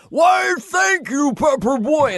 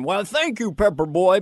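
First: Slow, high, very loud shout of the line; hammed-up yelled thank-you; Farley's big shout. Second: Said in the usual way. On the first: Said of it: "Chris went". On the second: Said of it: "Farley had one line".

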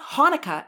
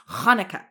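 First: "Hanukkah" with a plain English breathed H, higher; soft H. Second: "Hanukkah" opening on a scraped throaty kh; guttural H. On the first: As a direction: say the wrong "Hanukkah", no throat sound. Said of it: "it's not Hanukkah". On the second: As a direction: attempt a Hebrew kh at the start of "Hanukkah". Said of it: "it's Hanukkah". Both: Shown as a demonstration.

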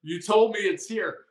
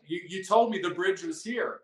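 First: "told" hit harder, a bit louder, pushing back; insistent mock complaint. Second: "told" lightly stressed, a hint of protest; half-hearted imitation of a tired hiker's complaint that "told" him; mock complaining hiker. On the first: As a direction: press on "told" as the tired hiker insists. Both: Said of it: "they're like".

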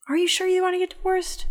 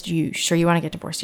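First: Very high, incredulous questioning; imitated sceptical judge, pitched way up; doubtful repeated question. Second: Said in the usual way. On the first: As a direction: press the question in a high, disbelieving voice. Judge asks again, doubting him.

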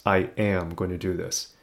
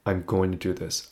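First: "am" firmly stressed in quiet self-talk. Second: Said in the usual way. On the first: Retold or imitated. Telling himself before the last try, stressing "am". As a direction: lean on "am" in "I am going".

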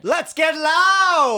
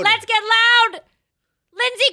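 First: Slow, high, loud party shout; hype shout. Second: High, loud echoed chant; hype shout. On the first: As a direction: call it out like a party chant. Hype call. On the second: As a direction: shout it back at the party. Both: Real, not acted.

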